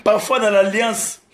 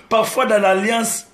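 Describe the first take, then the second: No difference in how they are said.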